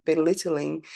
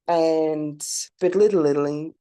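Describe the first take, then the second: First: Belittling said cleanly, four clear syllables; clean retry. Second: Belittling tripped over, an extra syllable slipped in, slow; tongue-tied stumble. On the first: Podcaster to listeners, correcting belittling cleanly. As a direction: say belittling properly this time. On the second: Podcaster to listeners, fumbling belittling with a stumble. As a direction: trip over the word belittling, slowly. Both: Real, not acted. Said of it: "how about I say that again".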